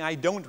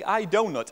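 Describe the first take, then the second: First: "don't" as one syllable, final t sounded; one-syllable "don't", not the pastry; funny-accented "don't". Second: "donut" in two distinct syllables, DOH-nut; loud, higher "I donut", both syllables sounded; clear "donut". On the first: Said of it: "with a funny accent?". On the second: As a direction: say "donut" like the pastry. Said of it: "are they saying". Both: Shown as a demonstration.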